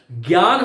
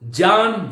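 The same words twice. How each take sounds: First: ज्ञान said as "gyaan", with a g and y; the everyday "gyaan" for ज्ञान; common gyan pronunciation. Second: ज्ञान said as "jaan", starting with ज; ज्ञान with a clean ज sound, no g; pure ज pronunciation. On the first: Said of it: "मेरे मुख से आप कभी भूल". (ज्ञान को "ग्यान" की तरह बोलें) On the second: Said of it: "उनको मैं ज के रूप में बोलता हूं". (ज्ञान को शुद्ध ज के रूप में "जान" बोलें) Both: Shown as a demonstration.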